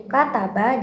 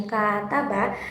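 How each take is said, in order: First: Said in the usual way. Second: First syllable of "kata ba" held long; "kata ba" said as kaa-ta-ba; long first vowel. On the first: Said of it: "itu memiliki durasi pendek". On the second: Shown as a demonstration. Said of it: "itu memiliki durasi yang panjang".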